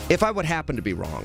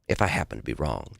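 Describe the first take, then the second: First: It is said in his normal talk-radio voice. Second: It is said in a smooth, soft, crooning voice.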